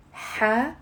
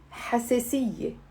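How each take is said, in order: First: حساسية in four separate syllables, ha, se, si, ye. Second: Said in the usual way. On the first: Shown as a demonstration. Teacher getting learners to repeat along, syllable by syllable. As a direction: break حساسية up with long gaps, ha... se... si... ye. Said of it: "It's four syllables".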